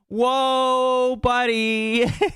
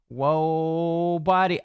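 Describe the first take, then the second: First: It is read in a put-on character voice. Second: It is read in the speaker's normal voice.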